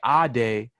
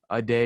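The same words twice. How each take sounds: First: It does not sound like the English words 'a day'. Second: It sounds like the ordinary English words 'a day'. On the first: It is the name as it is really said. The speaker calls it right. "that's my name. There's power in my actual name" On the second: It is a teasing mispronunciation of the name. The speaker calls it wrong. "You mean like Monday, like a day"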